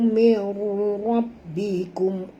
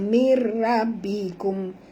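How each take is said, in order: First: The ra is pronounced heavy and thick. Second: The ra is pronounced light and thin. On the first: The speaker calls it right. "Ra sini baca tebal" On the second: The speaker calls it wrong. "jangan baca mir rabbikum, tak betul ya"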